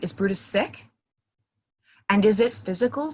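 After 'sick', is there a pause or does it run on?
pause. It stops after 'sick' as a separate question. The first question is asked on its own before moving on. "say that first thing, like, hey, are you sick?"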